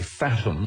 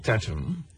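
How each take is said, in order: First: The name begins with an English th sound. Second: The name begins with a plain t sound. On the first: "he's pronouncing it in English, you might have a tendency to say" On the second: "I prefer"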